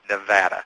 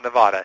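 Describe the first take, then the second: First: The middle vowel sounds like 'a' in cat. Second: The middle vowel sounds like 'ah' in father. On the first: The speaker calls it right. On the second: The speaker calls it wrong.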